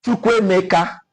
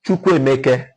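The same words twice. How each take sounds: First: "Chukwuemeka" ending in an open -ka; other Igbo pronunciation. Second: "Chukwuemeke" ending in -keh; Ukwuani pronunciation. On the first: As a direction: say "Chukwuemeka" with a final "ah". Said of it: "Others, we say Chukwuemeka". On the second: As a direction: say "Chukwuemeke" with a final "eh", pitched lower. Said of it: "we say Chukwuemeke". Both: Shown as a demonstration.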